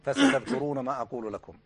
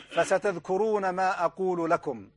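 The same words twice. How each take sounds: First: Higher quoted warning. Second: Said in the usual way. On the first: Retold or imitated. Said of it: "في حلقة البارحة يا شيخ". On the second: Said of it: "هذا ما قاله الشيخ".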